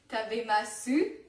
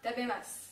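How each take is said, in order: First: The final u is clearly pronounced. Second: The final u is dropped, ending on s.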